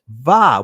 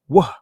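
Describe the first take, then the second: First: It begins with a buzzing V sound. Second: It begins with a rounded W sound. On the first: This is the modern pronunciation. "now pronounced in the Israeli language va with a v sound" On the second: This is the older pronunciation. "versus a wa"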